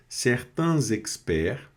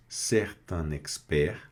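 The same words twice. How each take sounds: First: Z liaison carried into "experts"; liaison in "certains experts". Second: Said in the usual way. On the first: Shown as a demonstration. Teacher showing where French needs linking, liaison in "certains experts". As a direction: slowly link "certains" to "experts" with a z. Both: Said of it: "uma liaison aqui".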